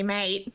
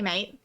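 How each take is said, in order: First: It is said in a hostile, threatening tone. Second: It is said in a warm, friendly tone. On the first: The listener is in trouble and should be careful. "you better get ready to run" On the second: The speaker is greeting a pal. "You're, you're friendly"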